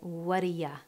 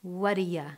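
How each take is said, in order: First: The words run together, ending in a reduced ya. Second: The words run together, ending in a reduced ya.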